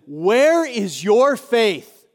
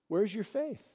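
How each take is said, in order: First: "Where is your faith" drawn out slowly, each word weighted; emphatic challenge. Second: Soft, hushed "where's your faith"; gentle question. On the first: Jesus confronts his frightened disciples. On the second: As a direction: ask "where's your faith" quietly and intimately. Jesus gently asks the congregation. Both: Acted.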